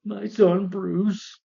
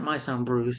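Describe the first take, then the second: First: Stretched, high, slow mock-solemn call; dramatic father. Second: Said in the usual way. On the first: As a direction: draw it out like a hammy movie father. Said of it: "do you see David Sharp". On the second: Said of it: "he's like".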